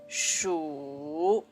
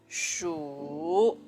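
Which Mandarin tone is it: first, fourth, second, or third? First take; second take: third; third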